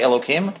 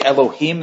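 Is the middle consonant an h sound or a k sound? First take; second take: k sound; h sound. First: The middle consonant is a k sound. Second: The middle consonant is an h sound. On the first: The divine name is avoided out of reverence. "they say Elohim" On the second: The divine name is said directly. "they don't say Elohim"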